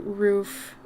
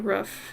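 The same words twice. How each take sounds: First: The word is said with careful, clear enunciation. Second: The word is said in a relaxed, casual way. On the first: This is how it is supposed to be said. The speaker calls it right. "I know I should say roof, but it's so hard to enunciate like that" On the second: This is how the speaker normally says it. The speaker calls it wrong. "I say roof"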